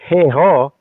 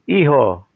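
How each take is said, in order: First: The word begins with an audible h sound. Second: The word begins directly with a vowel sound. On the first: The speaker calls it wrong. "That's not heho" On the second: The speaker calls it right. "it's iho"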